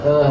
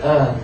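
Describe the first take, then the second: First: The vowel is said with a closed mouth. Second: The vowel is said with a closed mouth.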